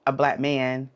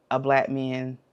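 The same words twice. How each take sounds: The two takes are said the same way.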